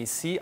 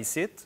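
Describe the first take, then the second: First: It is said with a standard French pronunciation. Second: It is said with a regional Quebec pronunciation. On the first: The official name of the network. "Radio-Canada devient ici" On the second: The name as it would be in the regions. "en région ce sera ici"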